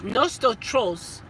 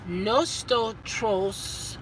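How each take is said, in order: First: "nosotros" said again, slowly and deliberately, as the corrected version; corrected Spanish. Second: "Nosotros" drawn out very slowly, syllable by syllable, as a shaky first attempt; first try at Spanish. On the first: Fixing the Spanish word for viewers, slow and careful. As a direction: carefully land "nosotros" on the second try, slow and steady. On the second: Fumbling the Spanish word for viewers, slow and unsure. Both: Shown as a demonstration. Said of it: "No, nosto".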